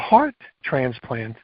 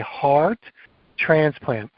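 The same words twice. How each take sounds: First: It is said at normal conversational speed. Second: It is said slowly and deliberately.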